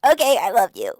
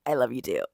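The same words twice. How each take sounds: First: Loud, high put-on girlish voice; mock gushing heroine. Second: Low-pitched put-on man's reply; imitated male lover. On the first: Heroine answers her lover's plea, mock gushing. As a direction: blurt it out high and eager. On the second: Hero answers heroine's confession, imitated low voice. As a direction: drop the voice low for his answer.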